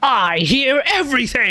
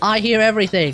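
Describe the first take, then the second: First: The line is said with more forceful energy. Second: The line is said with little energy. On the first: The speaker calls it right. "just a smidge more oomph" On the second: The speaker calls it wrong. "Instead of I hear everything"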